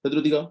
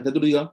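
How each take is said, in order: No difference in how they are said.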